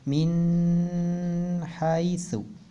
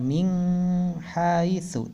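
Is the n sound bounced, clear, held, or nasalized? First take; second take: held; nasalized. First: The n sound is held for a while. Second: The n sound is nasalized with a hum. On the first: "atau tidak ditahan" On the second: "Jadi enggak min haitsu, tidak dengung ya"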